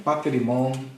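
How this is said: The vowel after 'pater' sounds like i. This is the modern Greek pronunciation. "eles falam paterimon"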